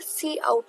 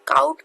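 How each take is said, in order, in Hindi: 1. यह s ध्वनि से शुरू होता है, जैसे 'see out'। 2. यह k ध्वनि से शुरू होता है, जैसे 'kout'। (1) "सी आउट होता है" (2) "अक्सर लोग काउट कहते हैं, काउट नहीं होता"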